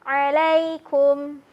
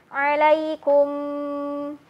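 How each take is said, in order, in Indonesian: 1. Bunyi m di akhir hanya ditahan sebentar. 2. Bunyi m di akhir ditahan terlalu lama. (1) "mengalirnya satu harokat saja" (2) "jangan terlalu lama"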